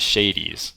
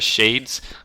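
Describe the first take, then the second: First: The word is said as two syllables. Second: The word is said as one syllable. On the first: The speaker calls it wrong. "he pronounces them as shadies" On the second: The speaker calls it right. "you know how Sh- Hades has shades?"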